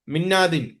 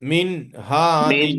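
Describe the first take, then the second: First: The n runs quickly into the next word. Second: The n is clearly sounded before the h. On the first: The speaker calls it wrong. "मिन्नादिन पढ़ा साथ में स्पीड में, वो भी गलत है।" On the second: The speaker calls it right. "नून को लाहिर में दिखे, दिखाना चाहिए"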